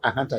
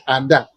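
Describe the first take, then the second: First: The name is said with an h sound. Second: The name is said without an h sound. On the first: The speaker calls it wrong. "we don't say Ahanta" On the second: The speaker calls it right. "you say Anda"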